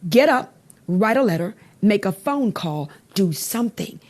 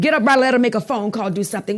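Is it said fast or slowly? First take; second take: slowly; fast. First: It is said slowly. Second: It is said fast.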